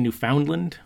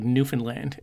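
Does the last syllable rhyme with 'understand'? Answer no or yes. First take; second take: no; yes. First: The last syllable does not rhyme with 'understand'. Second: The last syllable rhymes with 'understand'. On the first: The speaker calls it wrong. "A lot of people say Newfoundland" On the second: The speaker calls it right. "the proper way is like Newfoundland. It rhymes with like understand"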